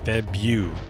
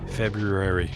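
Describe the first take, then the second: First: The r after the b is left out. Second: The r after the b is clearly pronounced. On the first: "even though I know it's B R U, I say Febu" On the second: "when you actually say February, how it's meant to be said"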